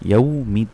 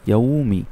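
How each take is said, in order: No difference in how they are said.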